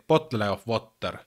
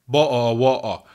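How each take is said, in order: First: Finnish-accented "bottle of water", every t sounded. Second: Loud British glottal "bo'o wo'o"; mock British accent. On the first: Shown as a demonstration. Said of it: "like a true Finnish person". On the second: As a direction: drop the t's in "bo'o wo'o", British-style. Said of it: "sounds really, really funny when you say".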